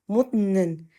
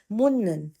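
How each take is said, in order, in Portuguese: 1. Um som de T vem antes de 'nan'. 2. Um som de N vem antes de 'nan'. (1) "se fosse pronunciado separado, seria mut" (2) "para que a pronúncia fique mais natural, mais fluida, ele se transforma no som do N de navio"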